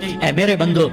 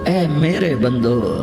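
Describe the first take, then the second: First: It is said in a plain, flat tone. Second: It is said in a warm, tender tone. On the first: The speaker calls it wrong. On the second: The speaker calls it right.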